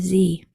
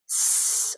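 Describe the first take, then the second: First: It is a voiced, vibrating buzz. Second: It is an unvoiced hiss of air. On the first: "that vibrating sound where your vocal cords are used" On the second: "a voiceless sound, which is just air"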